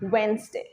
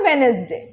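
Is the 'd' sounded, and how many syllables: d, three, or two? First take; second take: two; three. First: It has two syllables without the 'd'. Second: It has three syllables without the 'd'. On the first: The speaker calls it right. "Not ওয়েনেসডে, ওয়েনসডে" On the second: The speaker calls it wrong. "Wrong"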